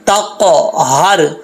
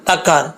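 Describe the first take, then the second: First: The middle h sound is clearly pronounced. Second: The middle h sound is dropped. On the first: The speaker calls it right. "हा को भी क्लियर करना है" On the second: The speaker calls it wrong. "बीच में हा खत्म कर देते हैं, ऐसा नहीं पढ़ना"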